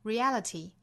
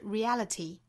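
First: The t is strongly released with a burst. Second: The t is strongly released with a burst.

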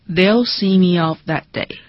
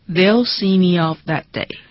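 No difference in how they are said.

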